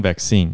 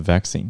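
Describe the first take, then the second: First: Vaccine stressed at the end, vac-CINE; American vaccine with the second syllable hit. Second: Vaccine stressed at the start, VAC-cine; British vaccine with the first syllable hit. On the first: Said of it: "美国腔". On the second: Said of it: "英国腔是". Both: Shown as a demonstration.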